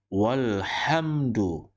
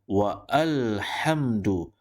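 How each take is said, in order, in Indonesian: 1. Wa langsung menyambung ke lhamdu tanpa jeda. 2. Bunyi a tambahan dibaca setelah wa. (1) "maka bacaannya adalah walhamdu" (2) "Kita tidak boleh baca wa alhamdu"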